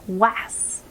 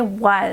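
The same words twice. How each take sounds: First: The vowel sounds like the a in ass. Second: The vowel sounds like the u in us. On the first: The speaker calls it wrong. "if I was to go sound this word out, it would actually sound like w, a, s, was" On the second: The speaker calls it right. "now we needed to say us for was"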